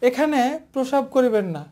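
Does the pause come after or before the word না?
after. The pause comes right after the word না. Urinating here is forbidden, with a fine. The speaker calls it right. "হালকা pause"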